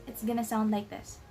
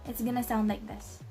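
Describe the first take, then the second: No difference in how they are said.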